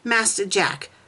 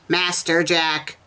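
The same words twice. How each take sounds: First: It is said in the reader's normal voice. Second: It is said in a put-on character voice. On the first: The speaker calls it wrong. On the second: The speaker calls it right.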